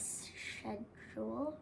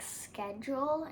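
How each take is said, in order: First: It is said in an Indian accent. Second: It is said in an American accent. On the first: "instead of schedule" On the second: "In America, we say it like schedule"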